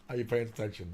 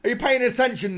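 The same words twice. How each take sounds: First: Said in the usual way. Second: Mock movie quote.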